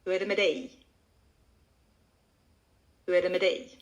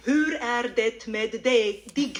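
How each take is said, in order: First: "Hur är det med dig" as one word, unstressed up to a long "dig"; fluent natural Swedish, only "dig" stressed; connected into one word. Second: "Hur är det med dig" slow, every word separate and fully sounded as spelt; stilted beginner's "Hur är det med dig", each word stressed; worst learner variant. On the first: Shown as a demonstration. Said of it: "connect the two into one word". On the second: Retold or imitated. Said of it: "that's the worst variant".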